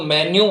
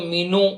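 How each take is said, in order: First: A 'y' glide comes before the final vowel. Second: The first vowel is a long 'ee' sound. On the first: "कई लोग इसको मेन्यू बोलते हैं, जो कि बिल्कुल गलत होता है" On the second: "कई लोग इसको मीनू"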